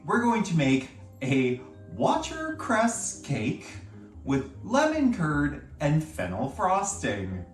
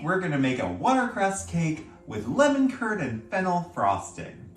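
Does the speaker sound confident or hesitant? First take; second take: hesitant; confident. First: It is said with little confidence, sounding unsure. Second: It is said with more confidence, sounding assured. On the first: The speaker calls it wrong. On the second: The speaker calls it right.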